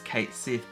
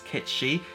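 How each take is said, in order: First: The name is said as two words, 'Kate Sith'. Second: The name is said as two syllables, 'Ketshi'. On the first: This is the spelling-based Western reading of the name. "pronounced phonetically in the West as Kate Sith" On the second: This is how the name was meant to be said. "apparently going to be pronounced as Ketshi"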